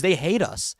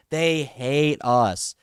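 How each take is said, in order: First: Said in the usual way. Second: "They hate us" drawn out very slowly, each word leaned on; bitter slow-motion emphasis; slow, weighted repeat. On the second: Real, not acted.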